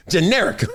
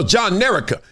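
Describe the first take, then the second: First: Said in the usual way. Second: "John Nerica" as two names joined; name broken down. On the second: Shown as a demonstration. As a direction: say "John Nerica" with a full JOHN first. Shows how the name is combined.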